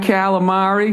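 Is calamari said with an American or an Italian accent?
American. It is said with a flat American accent. The speaker calls it wrong. "The way I say it. Just fucking terrible"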